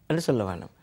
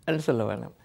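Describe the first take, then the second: The two takes are said the same way.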